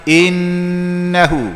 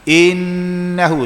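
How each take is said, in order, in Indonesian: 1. Dengung pada huruf n ditahan panjang. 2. Dengung pada huruf n ditahan panjang.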